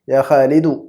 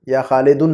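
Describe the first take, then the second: First: The name ends on a plain u vowel. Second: The name ends with an added n sound. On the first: The speaker calls it right. "बगैर तनवीन के" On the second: The speaker calls it wrong. "नहीं"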